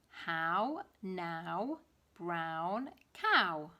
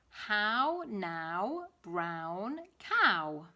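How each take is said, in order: The two takes are said the same way.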